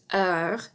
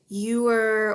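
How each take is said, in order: First: It sounds like 'her' without the h. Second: It sounds like the English word 'ewer'. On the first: The speaker calls it right. "kind of like the word her, only without the H sound" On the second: The speaker calls it wrong. "Some people pronounce it ewer"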